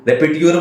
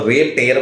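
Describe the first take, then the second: First: The word ends with a tyur sound. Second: The word ends with a tayer sound. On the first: "रेपिट्यूर बोलता" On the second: "अगर normal आदमी बोलता तो रेप टेयर बोलता"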